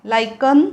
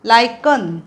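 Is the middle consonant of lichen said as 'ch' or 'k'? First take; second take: k; k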